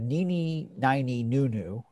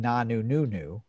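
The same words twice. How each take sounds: First: "Nini, nini, nunu" drawn out, second "nini" as nigh-nee; doctor's nonsense syllables. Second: "Nanu, nunu" with an open ah in the first word; Oscar's nonsense syllables. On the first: Host quoting the doctor's line, nonsense "Nini, nini, nunu" sounded out. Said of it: "the doctor said". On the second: Host quoting Oscar's version, "Nanu, nunu" sounded out. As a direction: say "Nanu, nunu" as nah-noo, noo-noo. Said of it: "Oscar's saying". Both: Retold or imitated.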